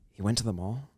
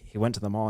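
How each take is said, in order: First: It is said as a question, rising. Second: It is said as a statement, falling.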